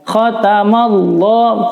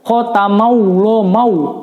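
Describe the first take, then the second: First: There is no w sound before Allah. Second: A w sound is inserted before Allah. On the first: The speaker calls it right. "tapi juga tidak membaca bunyi huruf waw ya" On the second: The speaker calls it wrong. "Kebanyak banyak di antara anak-anak ketika membaca"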